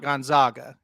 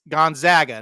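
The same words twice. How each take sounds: First: The middle syllable rhymes with 'log'. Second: The middle syllable rhymes with 'bag'. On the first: The speaker calls it wrong. "not Gonzaga. ... not the Zogs" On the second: The speaker calls it right. "It's it's it's Gonzaga, ... the Zags"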